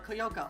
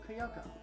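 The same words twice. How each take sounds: First: The name begins with a separate 'Koy' syllable. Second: The name begins with a single 'Kyo' syllable. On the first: The speaker calls it wrong. "I just said Koy Koyoko, no" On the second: The speaker calls it right. "it's K Y"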